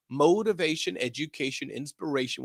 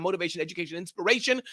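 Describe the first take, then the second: First: Deliberate, measured delivery; slow down and give each word its room; said slower. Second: Said in the usual way. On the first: Shown as a demonstration. Host repeating the show's slogan for listeners, said slower. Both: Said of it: "Let me say that slower".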